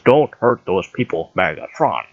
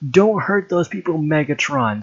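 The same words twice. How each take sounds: First: It is said in an Optimus Prime impression. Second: It is said in a normal reading voice.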